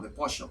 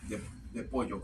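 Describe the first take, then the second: First: Pollo said Argentine style with a sh sound, posho; Argentine pollo attempt. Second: Said in the usual way. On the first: Tarot reader imitating her Argentine viewers, pollo with sh. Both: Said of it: "no sé cómo hacen ese acento".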